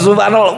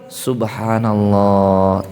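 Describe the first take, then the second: First: The word is said quickly and rushed. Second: The word is said slowly and calmly. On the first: The prayer is hurried without calm. The speaker calls it wrong. "bukan itunya" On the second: The prayer is done with calm composure. The speaker calls it right.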